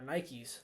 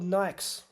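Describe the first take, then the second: First: It is said the American way. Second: It is said the non-American way.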